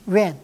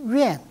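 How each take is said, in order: First: The syllable is said with a falling tone. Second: The syllable is said with a falling tone.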